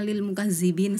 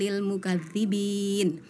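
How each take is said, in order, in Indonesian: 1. Konsonan tengahnya bunyi 'z' biasa. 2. Konsonan tengahnya bunyi 'dh' yang lembut.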